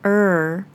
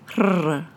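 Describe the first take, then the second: First: The R is smooth, with no tongue trill. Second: The R is rolled, with a tongue trill. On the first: The speaker calls it right. "You should be saying the R sound like R" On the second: The speaker calls it wrong. "or the rolled R"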